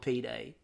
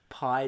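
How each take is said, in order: First: It is said as two syllables. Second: It is said as one syllable. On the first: The speaker calls it right. "it was P Day" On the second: The speaker calls it wrong. "calling it pied"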